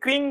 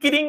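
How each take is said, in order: First: The k and r sounds form a cluster. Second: A vowel separates the k and r sounds. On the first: The speaker calls it right. "সবাই ক্রিং বলতো" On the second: The speaker calls it wrong. "ক্রিংকে যদি কিরিং না বলে"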